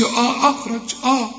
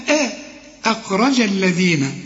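First: آه أخرج with a dark, thick "aw"-like opening vowel; wrong heavy hamza. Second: أخرج opened with a thin, front "eh"-like vowel; light hamza. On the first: Teacher showing the mistake to avoid, heavy hamza in أخرج. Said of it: "الهمزة أنا قلت لك مرققة، فما تقولش". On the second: Teacher correcting the student, light thin hamza in أخرج. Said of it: "الهمزة أنا قلت لك مرققة". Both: Shown as a demonstration.

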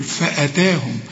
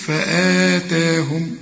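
First: فأتاهم with a short hamza vowel, only "taa" long; no madd. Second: فآتاهم with both "aa" vowels stretched slowly; with madd. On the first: Teacher explaining no madd, short hamza in فأتاهم. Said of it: "يبقى ما عندكش مد". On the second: Teacher showing the contrasting madd, فآتاهم drawn out evenly. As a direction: lengthen the vowel after the hamza in فآتاهم. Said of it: "وبعدها مد تقول إيه؟". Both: Shown as a demonstration.

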